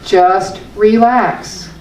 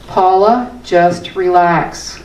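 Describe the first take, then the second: First: Drawn-out, soothing "relax"; slow relax. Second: Slow, soothing mantra to herself; calming self-talk. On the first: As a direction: let "Just relax" melt slowly. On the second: Speaker calming herself with her own mantra, slow and soothing. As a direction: ease her own mind, slowly. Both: Shown as a demonstration. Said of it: "I use this".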